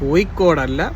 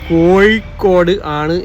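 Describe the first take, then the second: First: It is said in the colloquial local pronunciation. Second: It is said in the standard written pronunciation. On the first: This is how locals say it in everyday speech. The speaker calls it wrong. "ഞങ്ങളിങ്ങനെ കോഴിക്കോട്ടുകാർ കോഴിക്കോട് എന്ന് പറയുമ്പോൾ" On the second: This is how some people insist it should be said. The speaker calls it right. "പറയണമെന്ന് പറയും"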